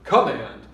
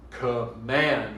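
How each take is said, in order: First: The stress is on the first syllable. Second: The stress is on the second syllable. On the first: The speaker calls it wrong. "we don't stress the first syllable. That's not correct" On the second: The speaker calls it right. "we sometimes stress the second syllable"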